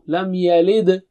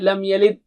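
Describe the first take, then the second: First: The final d is released with a bounce. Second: The final d is stopped without a bounce. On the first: The speaker calls it right. "There is qalqala at dal" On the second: The speaker calls it wrong. "So you don't say"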